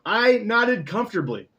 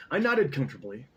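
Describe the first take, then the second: First: Comfortably said carefully, louder and higher; corrected pronunciation. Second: Comfortably said as "comftably", letter dropped; mispronounced word. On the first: Reader fixing the word, proud and louder comfortably. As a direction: nail comfortably this time. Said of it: "That's how you say that". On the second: Reader stumbling over a word, misreading comfortably. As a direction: blurt out comfortably clumsily. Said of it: "That's not how it's spelled". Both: Shown as a demonstration.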